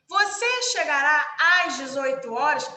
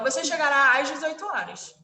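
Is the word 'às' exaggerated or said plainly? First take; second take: exaggerated; plain. First: The word 'às' is marked and exaggerated. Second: The word 'às' is said plainly, unmarked. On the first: The speaker audibly marks the crase. The speaker calls it wrong. "A gente não vai chegar e falar assim" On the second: The crase is not marked in speech. The speaker calls it right. "A gente fala"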